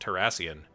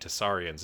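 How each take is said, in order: First: The word begins with 'Terr' before the s. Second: The word begins with 'Tess' before the r. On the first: The speaker calls it right. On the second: The speaker calls it wrong. "I've been saying that wrong this entire time"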